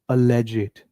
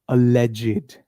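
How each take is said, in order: No difference in how they are said.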